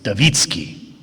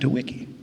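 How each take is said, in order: First: The name is said with a Polish-style pronunciation. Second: The name is said with an English-style pronunciation. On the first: The speaker calls it right. "No, it's Dawicki" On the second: The speaker calls it wrong. "we anglicize every name, and so we pronounce it Dewicki"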